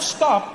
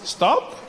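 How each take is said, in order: First: It is said as a firm command. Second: It is said as a gentle suggestion.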